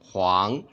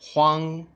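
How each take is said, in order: First: The pitch rises from mid to high. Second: The pitch stays high and level. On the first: "second tone" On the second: "first tone"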